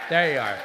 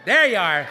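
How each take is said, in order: First: Said in the usual way. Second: Spotting her at last, a glad louder shout; louder, higher glad exclamation. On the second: Real, not acted. Comedian spotting Barbara Kopple in the crowd, louder glad cry. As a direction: call out as you finally see her.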